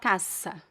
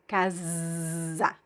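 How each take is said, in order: First: The middle consonant is a hissing s sound. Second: The middle consonant is a buzzing z sound. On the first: The speaker calls it wrong. "It's not casa" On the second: The speaker calls it right. "if you find the S between two vowels, it, bec it becomes Z"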